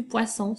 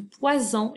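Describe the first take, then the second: First: "poisson" with an unvoiced s sound in the middle; hissed double S. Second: "poison" with a voiced z sound in the middle; buzzed single S. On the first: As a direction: say "poisson" with S, not Z. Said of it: "ce ne sera plus du poisson". (« poisson » avec le son S) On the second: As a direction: say "poison" with Z, not S. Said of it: "ce sera du poison". (« poison » avec le son Z appuyé) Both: Shown as a demonstration.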